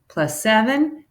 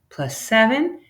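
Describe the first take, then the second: No difference in how they are said.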